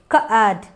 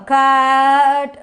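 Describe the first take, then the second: First: The vowel is short and clipped. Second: The vowel is drawn out long. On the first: The speaker calls it right. "see here only a one vowel" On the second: The speaker calls it wrong. "we cannot make the sound very long"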